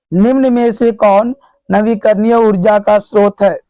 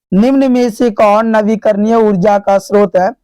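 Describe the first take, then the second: The two takes are said the same way.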